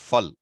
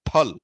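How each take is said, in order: First: It begins with an f sound. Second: It begins with an aspirated p sound. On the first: The speaker calls it wrong. "not fal. Fal maybe modern days has happened, some extent, corruption has happened" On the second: The speaker calls it right. "Typical North Indian pronunciation for fruit is phal"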